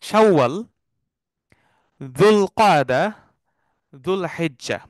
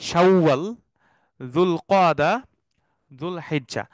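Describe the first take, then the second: Both takes have the same delivery.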